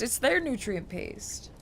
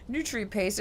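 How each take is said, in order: First: Their stressed and drawn out slowly. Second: Said in the usual way. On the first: Shown as a demonstration. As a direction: lean on their, slow, falling at the end.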